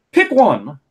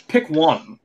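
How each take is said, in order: First: Louder, higher, fed-up command; exasperated demand. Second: Said in the usual way. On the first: Real, not acted. Podcaster telling Lana to choose an accent, loud exasperated demand. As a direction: snap it out like you've had enough. Complaining about Lana's switching accents.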